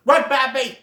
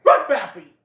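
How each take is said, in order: First: Higher, louder urgent shout. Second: Much louder command; urgent shout. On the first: Great Prince warning Bambi, urgent shout. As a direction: yell at him to flee. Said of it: "he shouts". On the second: Great Prince repeating the warning, loud command. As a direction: bark the order again. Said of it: "the Great Prince says". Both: Retold or imitated.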